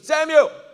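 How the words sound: It is called out briskly to get attention. The caller wants the listener to notice him. "He's trying to get his attention"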